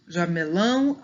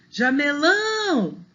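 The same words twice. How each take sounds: First: Said in the usual way. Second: JAMELÃO with a long, high final LÃO; calling the word. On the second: Shown as a demonstration. Teacher revealing the last strong syllable, calling jameLÃÃO. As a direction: call out jamelão, stretching and lifting LÃO. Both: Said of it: "Chama aí a palavra".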